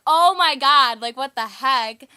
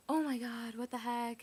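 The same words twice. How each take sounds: First: Very loud, high cry of alarm, slowing at the end; freaked-out exclamation. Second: Understated exclamation, far less forceful than a yell; mild retold dismay. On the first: Retold or imitated. Friends spot police lights behind them, freaking out loudly. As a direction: belt it out as a panicked retelling. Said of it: "we're, like, freaking out". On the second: Sister told off by the officer, mildly dismayed. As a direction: voice the sister's dismay without shouting.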